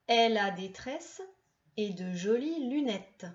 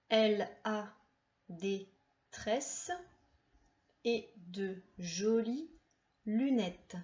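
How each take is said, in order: First: The sentence is read at a faster pace. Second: The sentence is read at a slower pace.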